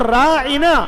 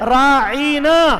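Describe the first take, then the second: First: The word is said with short, plain vowels. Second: A vowel in the word is drawn out. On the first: It asks for attention. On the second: It calls the listener a shepherd.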